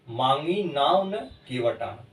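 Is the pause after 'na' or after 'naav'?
after na. The pause comes right after 'na'. The boat was not asked for, yet the boatman came. "लेकिन मैंने नाव नहीं मांगी तो केवट आ गया"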